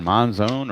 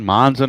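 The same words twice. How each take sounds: First: Monzone with a long O, like "zone"; alternative pronunciation. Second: Monzon as MON-zun, short ending; alternative pronunciation. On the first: Crediting the fielder either way, Monzone ending in "zone". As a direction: finish Monzone on a full "zone". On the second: Crediting the fielder either way, Monzon as MON-zun. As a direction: say Monzon with a weak second syllable, "zun". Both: Shown as a demonstration. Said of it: "however you wanna pronounce it".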